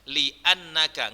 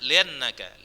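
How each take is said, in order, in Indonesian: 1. Hentian glotis memisahkan li dari annaka. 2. Li menyambung ke annaka tanpa hentian glotis.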